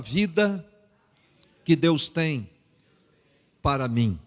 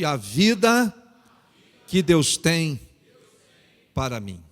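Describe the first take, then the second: First: It is said at normal, softer volume. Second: It is said louder and more forcefully.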